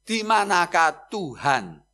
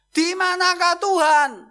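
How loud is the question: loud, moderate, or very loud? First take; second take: moderate; loud. First: The question is asked at normal volume. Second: The question is asked in a raised voice.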